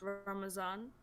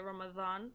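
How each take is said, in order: First: The middle consonant is a z sound. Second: The middle consonant is a dh sound. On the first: This is the Urdu way of saying it. "in the alphabet of that language in Urdu, it's Ramazan" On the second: This is the Arabic way of saying it. "in Arabic uh, language you just say Ramadan"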